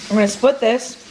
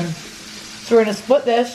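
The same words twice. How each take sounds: First: Said in the usual way. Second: Talking through a mouthful of bread; words round a bite of bread; mouth full. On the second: Real, not acted. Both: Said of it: "Sorry, I have bread in my mouth".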